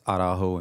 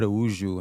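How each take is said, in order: First: The name is said with Spanish pronunciation. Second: The name is said with Portuguese pronunciation. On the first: "Araujo in Spanish" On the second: "Araújo in Portuguese"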